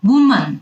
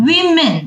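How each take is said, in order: First: Woman with a wu first syllable, wu-man; correct pronunciation. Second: Women with a wi first syllable, wi-min; correct pronunciation. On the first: (শুদ্ধ উচ্চারণে woman) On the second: (শুদ্ধ উচ্চারণে women) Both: Shown as a demonstration. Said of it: "তখন আমরা বলি".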